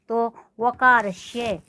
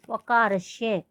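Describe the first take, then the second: First: वकारस्य said slowly, each syllable separate; slow careful word. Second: Said in the usual way. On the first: Shown as a demonstration. Teacher pronouncing वकारस्य slowly for class. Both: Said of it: "इस तरह से इसका उच्चारण होगा".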